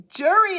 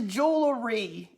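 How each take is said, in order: First: "Jury" for jewelry, without an L; dialect pronunciation. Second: "jewelry" in three slow syllables, JOO-luh-ree; standard-word correction. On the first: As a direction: say "Jury" as JUR-ee, meaning jewelry. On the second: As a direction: sound the L in "jewelry". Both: Retold or imitated. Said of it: "jury is jewelry".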